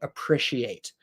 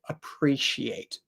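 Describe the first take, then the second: First: The middle has no 'ee' sound. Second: The middle has an 'ee' sound. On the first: This is how the speaker personally says it. "I definitely don't make a E sound. I say it more of an I or an S sound" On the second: This is how many other people say it. "many people say appreciate"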